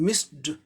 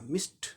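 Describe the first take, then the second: First: The word ends with a d sound. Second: The word ends with a t sound. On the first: The speaker calls it wrong. "हम लोग मिस्ड ड बोलते हैं" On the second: The speaker calls it right. "सही उच्चारण मिस्ट ट होगा"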